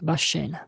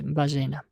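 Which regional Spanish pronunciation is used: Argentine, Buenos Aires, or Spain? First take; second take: Buenos Aires; Argentine. First: It is said the way Buenos Aires residents say it. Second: It is said the way Argentines generally say it. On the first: "для жителей города Буэнос-Айреса, то, наверное, он скажет «башена»" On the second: "а для нас будет «бажена»"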